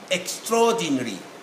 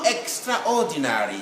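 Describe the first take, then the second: First: The A sound after extra is dropped. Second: The A sound after extra is pronounced. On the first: The speaker calls it right. "the A will not be there" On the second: The speaker calls it wrong. "there is no extraordinary"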